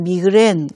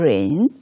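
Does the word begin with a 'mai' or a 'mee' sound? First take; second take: mee; mai. First: The word begins with 'mee', like 'mee-gren'. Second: The word begins with 'mai', like 'my-grain'.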